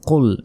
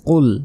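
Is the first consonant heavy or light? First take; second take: heavy; heavy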